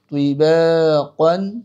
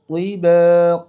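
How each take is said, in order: First: The word ends with an n sound. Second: The word ends on a bare vowel. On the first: The reading continues without stopping. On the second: The reader stops on this word.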